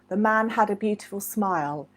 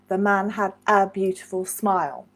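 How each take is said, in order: First: The word 'a' is barely heard at natural speed. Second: The word 'a' is said clearly and carefully.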